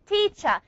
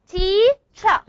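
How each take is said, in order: First: Said in the usual way. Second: Teacher split as "TEA, CHA", louder; syllable by syllable. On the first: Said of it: "I counted the vowels". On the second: Shown as a demonstration. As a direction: sound out teacher in two distinct beats. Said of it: "two syllables".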